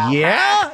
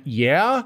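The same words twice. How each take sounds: First: High-pitched, drawn-out yeah; eager reply. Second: Hesitant yeah, rising at the end; tentative reply. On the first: Tourist asked about Grand Theft Auto, eager high reply. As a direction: imitate a keen tourist, voice leaping up. Second, bigger reply in retold exchange. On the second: Tourist answering a curious Welsh stranger, tentative. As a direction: answer a stranger with a questioning lilt. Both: Retold or imitated.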